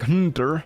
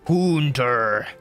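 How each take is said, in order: First: The first vowel is said short and plain. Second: The first vowel is stretched out long. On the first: "not like" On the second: "They'd add on three more U's if they could"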